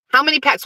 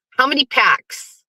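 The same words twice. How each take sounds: First: A touch higher mocking repeat; teasing repeat. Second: Taunt. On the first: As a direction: needle Pat again. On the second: Pretend. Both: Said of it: "taunting Pat".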